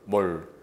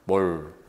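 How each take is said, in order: No difference in how they are said.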